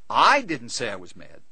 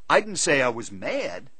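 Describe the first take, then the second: First: The stress is on the first word, I. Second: The stress is on the word mad. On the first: Someone else said it. "He said I was mad" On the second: A different feeling was claimed. "I said I was disappointed"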